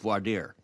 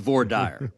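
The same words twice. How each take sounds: First: The words are said with a French-like pronunciation. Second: The words are said with an English-like pronunciation. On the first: This is how it is said in other regions. "In many parts of the country, that's pronounced voir dire" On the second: This is how it is said in the home state. "In Texas, it's voir dire"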